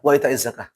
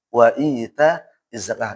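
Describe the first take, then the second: First: The vowel in 'ita' is cut short. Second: The vowel in 'ita' is held long. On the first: The speaker calls it wrong. "Bukan wa ita zakah" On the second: The speaker calls it right.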